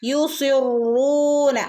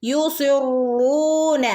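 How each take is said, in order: No difference in how they are said.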